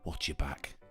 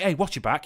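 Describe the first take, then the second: First: It is said softly, close and quiet. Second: It is said at normal loudness, openly.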